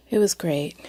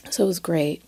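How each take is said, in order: First: Hushed whisper, almost no voice. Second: Said in the usual way. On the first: Shown as a demonstration. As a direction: breathe it out as a secret.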